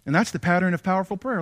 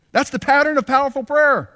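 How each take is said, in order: First: Said in the usual way. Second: High, loud proclamation of the point; proclaimed. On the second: Shown as a demonstration. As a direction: hammer the lesson home.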